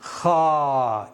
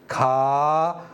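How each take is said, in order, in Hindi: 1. kha ध्वनि अरबी तरीके से बोली जाती है। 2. kha ध्वनि हिंदी तरीके से बोली जाती है। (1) "अरबी वाले की खा" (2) "इसकी आवाज खा"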